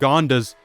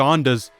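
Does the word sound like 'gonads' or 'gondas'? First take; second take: gondas; gondas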